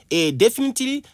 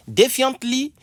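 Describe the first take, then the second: First: Definitely said as de-fi-ni-te-ly, high and stressed; teacher models definitely for the class, high-pitched; model pronunciation. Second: Defiantly said slowly as de-fi-ant-ly, rising at the end; teacher models Defiantly to students, high and rising; model pronunciation. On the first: Teacher contrasts definitely with defiantly for students. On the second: Showing the class how to say Defiantly, high and rising. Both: Shown as a demonstration. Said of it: "Ne confondez pas defiantly and definitely".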